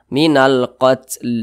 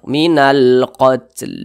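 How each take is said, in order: No difference in how they are said.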